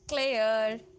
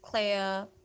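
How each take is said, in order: First: The R at the end is pronounced. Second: The R at the end is silent. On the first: The speaker calls it wrong. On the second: The speaker calls it right.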